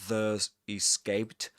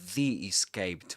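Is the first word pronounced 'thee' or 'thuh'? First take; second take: thuh; thee. First: 'The' is said with a weak schwa, like 'thuh'. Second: 'The' is said with a long ee, like 'thee'. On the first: The speaker calls it wrong. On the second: The speaker calls it right. "pronounced as the right before vowel sounds"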